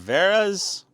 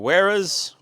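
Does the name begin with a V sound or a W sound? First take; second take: V sound; W sound. First: The name begins with a V sound. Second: The name begins with a W sound.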